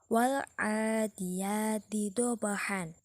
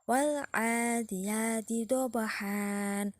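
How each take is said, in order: First: The last word ends with an n sound. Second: The last word ends with a long vowel. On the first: The reading continues without stopping. "kalau tidak diwakofkan" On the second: The reading stops at this word. "diwakofkan bacaannya"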